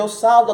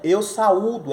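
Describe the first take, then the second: First: The u is weak, gliding into the a. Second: The u is stressed as its own syllable. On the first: The speaker calls it wrong. "Isso é errado" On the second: The speaker calls it right. "é forte"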